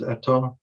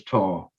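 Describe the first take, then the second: First: "eta" said with two short syllables, stress on the first; "eta", the full two-syllable Welsh form. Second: "ta" said with a long drawn-out vowel; "ta", the clipped Welsh form with its vowel lengthened; one-syllable form. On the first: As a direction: say "eta" as e-ta, both vowels short. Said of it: "Sometimes you hear it as". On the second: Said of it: "sometimes you hear it as". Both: Shown as a demonstration.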